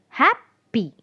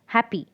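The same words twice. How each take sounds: First: "Happy" broken as hap, pause, py; higher-pitched "Happy" in two separate beats, hap and py; split into syllables. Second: Said in the usual way. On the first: Shown as a demonstration. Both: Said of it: "two syllables in this word".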